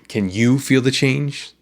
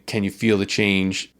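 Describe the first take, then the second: First: The stress is on you. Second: The stress is on feel and change.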